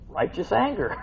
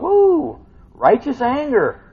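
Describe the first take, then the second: First: Said in the usual way. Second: High, loud, slow righteous anger with a whoop; stretched, exclaimed righteous anger; excited emphasis. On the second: Shown as a demonstration. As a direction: relish the words slowly and loudly. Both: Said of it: "We got righteous anger going on".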